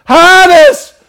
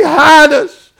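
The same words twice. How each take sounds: First: Higher and louder on "hide us"; desperate repeated plea. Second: Loud, high cry of hiding sinners; panicked crowd crying out; terrified plea. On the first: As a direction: cry "hide us" even harder. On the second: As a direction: beg to be hidden. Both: Acted. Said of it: "And they say".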